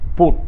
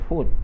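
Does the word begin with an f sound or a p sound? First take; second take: p sound; f sound. First: The word begins with a p sound. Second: The word begins with an f sound. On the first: "they change F with P" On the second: "They don't say food"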